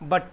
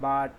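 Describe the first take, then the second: First: The vowel is a short 'ah' sound. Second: The vowel is not a short 'ah' sound. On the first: The speaker calls it right. "আমি কেনেকৈ pronounce কৰিব লাগে" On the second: The speaker calls it wrong. "আসলে এটো রং pronunciation"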